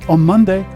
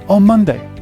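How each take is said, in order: Both takes have the same delivery.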